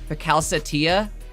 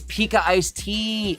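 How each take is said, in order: First: The name is run together as 'Pakal Satia'. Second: The name is split as 'Pika Ice Tea'. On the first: The speaker calls it wrong. "That was like a Taj level mispronunciation" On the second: The speaker calls it right. "Bro, it's Pika Ice Tea"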